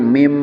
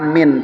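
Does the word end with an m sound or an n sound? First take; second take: m; n. First: The word ends with an m sound. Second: The word ends with an n sound. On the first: The speaker calls it right. "tapi mim" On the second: The speaker calls it wrong. "bukan bukan min"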